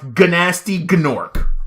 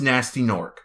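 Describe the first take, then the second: First: The G at the start of each word is sounded. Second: The G at the start of each word is silent. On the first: The speaker calls it wrong. "I pronounced it exactly as I saw it" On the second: The speaker calls it right. "Even though I know it's"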